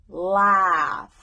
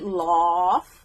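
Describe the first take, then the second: First: The vowel differs from the one in 'cause'. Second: The vowel sounds like the one in 'cause'. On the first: The speaker calls it right. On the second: The speaker calls it wrong.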